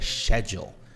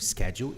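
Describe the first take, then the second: First: It is said with a British accent. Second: It is said with an American accent. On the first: "no inglês britânico é schedule" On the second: "no inglês americano schedule"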